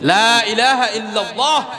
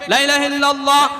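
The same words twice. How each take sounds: First: The first vowel is drawn out long. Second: The first vowel is cut short. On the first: There is no god but God. The speaker calls it right. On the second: The meaning becomes the opposite. The speaker calls it wrong.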